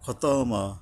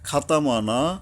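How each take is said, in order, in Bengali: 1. প্রথম সিলেবল ভারী ও মোটা। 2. প্রথম সিলেবল হালকা ও পাতলা। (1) "মোটা করে পড়তে হবে" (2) "আলিফ এখানে আকার উচ্চারণ করা যাবে না"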